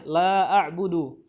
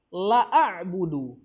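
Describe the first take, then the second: First: The vowel in la is held long. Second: The vowel in la is cut short. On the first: It denies the worship. The speaker calls it right. "Jadi la-nya panjang di situ, dua harokat minimal" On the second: It affirms the worship emphatically. The speaker calls it wrong. "Jangan dibaca"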